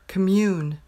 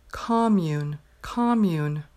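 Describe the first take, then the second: First: "commune" stressed on the second syllable, kuh-MYOON; verb commune. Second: "commune" stressed on the first syllable, KOM-mune; noun commune. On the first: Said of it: "The verb is commune". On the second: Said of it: "That's the noun". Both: Shown as a demonstration.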